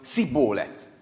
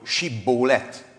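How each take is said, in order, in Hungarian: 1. A szó sima s hanggal kezdődik. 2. A szó sh hanggal kezdődik. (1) "nem tudták kiejteni az est, csak a lágyabbat, az eszt" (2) "Héberül ez úgy hangzik"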